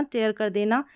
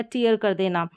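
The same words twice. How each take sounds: First: टेयर said with a long open e, like tare; tear as tayr. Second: टीयर said with a long ee sound; tear as teer. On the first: (टेयर को लंबी ए की आवाज़ में) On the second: (टीयर को लंबी ई की आवाज़ में) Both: Shown as a demonstration. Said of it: "दोनों तरीके से प्रोनाउंस किया जाता है".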